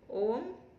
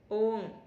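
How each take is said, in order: First: The syllable has a high rising tone. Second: The syllable has a level tone.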